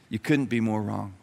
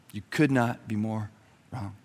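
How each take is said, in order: First: Quiet, stress on "couldn't"; "couldn't" firmly weighted, the rest plain. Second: Quiet, each word spaced, pause before "wrong"; "could not" spelled out in full, then a pause before "wrong". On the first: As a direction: lean on "couldn't", keep it low. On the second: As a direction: hold a beat before "wrong", then drop it. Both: Shown as a demonstration.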